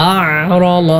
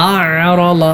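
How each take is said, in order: The two takes are said the same way.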